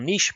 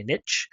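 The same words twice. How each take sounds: First: Said in the usual way. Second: "niche" said as "nitch", short i and a ch ending; Jeff Bourgeois's pronunciation. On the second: Retold or imitated. Presenter quoting a buddy's way of saying it, "niche" pronounced "nitch". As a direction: say "niche" to rhyme with "pitch". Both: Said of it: "as my buddy Jeff Bourgeois likes to say".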